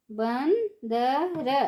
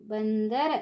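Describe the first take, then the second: First: बंदर stretched slowly, syllable by syllable; slow syllable drill. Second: Said in the usual way. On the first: Shown as a demonstration. Teacher drawing out बंदर slowly for children. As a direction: draw out बंदर for the class. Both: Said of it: "ऊंची आवाज़ में कैसे पढ़ेंगे".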